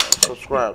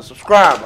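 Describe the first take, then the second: First: Said in the usual way. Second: A loud, punchy call to subscribe; loud plug. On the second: Shown as a demonstration. Telling viewers to subscribe in a loud punchy call. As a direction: bark the word Subscribe. at the audience. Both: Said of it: "I didn't forget that part".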